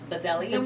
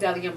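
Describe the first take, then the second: First: The word starts with an audible 'buh' sound. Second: The word starts directly with a 'd' sound. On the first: The speaker calls it wrong. "I've been calling them like Bedellium ... I know that's wrong" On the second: The speaker calls it right. "Now I know"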